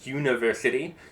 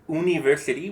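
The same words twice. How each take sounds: First: It begins with a y glide before u. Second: It begins with a plain u vowel. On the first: "we'll add a u sound at the beginning of u ... we say university" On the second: "instead of saying university"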